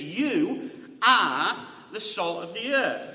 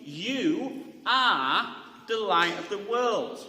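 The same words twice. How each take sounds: First: Slow, weighted reading; emphatic. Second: Slow, with stress on are; emphatic. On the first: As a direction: lean on every word, slowly. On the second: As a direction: land firmly on are, slowly. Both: Shown as a demonstration. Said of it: "The way the word is ... emphatic".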